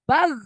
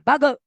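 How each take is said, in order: First: The final consonant flows out smoothly without a vowel. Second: The final consonant is followed by an extra vowel. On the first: The speaker calls it right. "Tapi bag, mengalir. Suara mengalir" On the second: The speaker calls it wrong. "Bukan bage, bage enggak"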